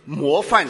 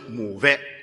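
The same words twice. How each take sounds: First: The word is said in standard Mandarin. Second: The word is said in Shanghainese.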